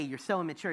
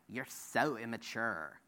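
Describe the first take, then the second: First: It is said in his plain, ordinary voice. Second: It is said mimicking mocking teenage girls.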